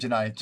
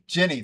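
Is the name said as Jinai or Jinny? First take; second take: Jinai; Jinny. First: The name is said as Jinai. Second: The name is said as Jinny. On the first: The speaker calls it wrong. "I keep saying Jinai" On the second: The speaker calls it right. "That's the correct pronunciation"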